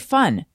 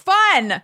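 First: The word is said at normal volume. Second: The word is yelled loudly.

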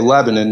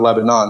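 First: Lebanon is said the local American town way. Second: Lebanon is said the way the country's name is. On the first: The speaker sounds like a local. The speaker calls it right. "they made sure to tell me to say Lebanon" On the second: The speaker sounds like a foreigner. The speaker calls it wrong. "not Lebanon, so that I don't seem like a foreigner"

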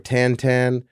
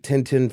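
First: The vowels sound like a nasal 'tan'. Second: The vowels sound like English 'tin'.

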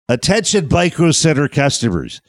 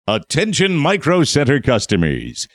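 First: It is said in a nerdy voice. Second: It is said in a normal voice.

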